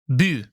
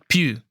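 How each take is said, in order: First: The word starts with a b sound. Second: The word starts with a p sound. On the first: "There's no P's, it's all B's. So it's bu" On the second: "not pu"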